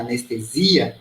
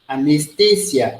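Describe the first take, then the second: First: It is stressed the Portuguese way. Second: It is stressed the Spanish way. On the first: "Em português" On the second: "Mudou o idioma, mudou a tonicidade"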